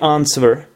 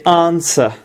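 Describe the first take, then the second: First: A W sound is pronounced in the middle. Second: The W is silent in the middle. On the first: The speaker calls it wrong. "We do not say answer" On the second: The speaker calls it right. "We say answer. ... there is never W sound"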